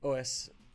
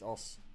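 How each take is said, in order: First: It is spoken as two separate letter names. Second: It is spoken as a single one-syllable word. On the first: The speaker calls it wrong. "it's not O S" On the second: The speaker calls it right. "It's Os"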